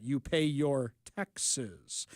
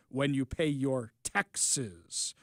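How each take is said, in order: First: "taxes" leaned on, slow and low; stress on taxes. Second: "taxes" weighted, slow and low; stress on taxes. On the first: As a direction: slowly drag out "You pay your taxes". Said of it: "They said that". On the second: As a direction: slowly lean into "When you pay your taxes". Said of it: "Morpheus goes". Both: Retold or imitated.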